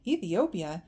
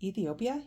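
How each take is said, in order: First: Startled echo with swooping pitch and falling end; taken aback. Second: ETHIOPIA offered with a rising end; tentative suggestion. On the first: Boy stops walking at his friend's answer, taken aback. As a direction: repeat it in disbelief. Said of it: "Salva stopped walking". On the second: Boy guesses their destination after thinking, tentative. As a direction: float it as a mild guess. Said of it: "Mariel thought for a moment". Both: A narrator's reading.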